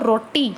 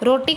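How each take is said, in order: First: The t sound is long and doubled. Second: The t sound is short and single. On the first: This is the Haryanvi form. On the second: This is the standard form.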